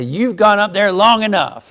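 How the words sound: It is said in a firm, commanding tone. It is an order to stop. "Like commanding them that you need to stop that"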